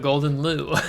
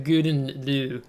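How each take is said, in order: First: The first word has an L sound in it. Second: The first word has no L sound in it. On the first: The speaker calls it wrong. "Previously, I've always called this ship the Golden Lou" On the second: The speaker calls it right. "I think the correct pronunciation"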